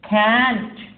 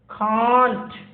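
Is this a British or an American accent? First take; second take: American; British. First: It is said with an American accent. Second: It is said with a British accent.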